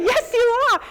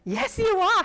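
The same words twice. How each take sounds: First: Very high and loud "Yes, you ARE."; emphatic repeat. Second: High, puzzled "Yes, you are."; bemused reply. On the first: Repeating to the stranger, louder and higher with a laugh. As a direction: say it again, bigger and louder. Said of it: "I said". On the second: Answering the unknown visitor, high and puzzled. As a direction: humor the stranger, pitch up in confusion. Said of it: "And I was like". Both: Retold or imitated.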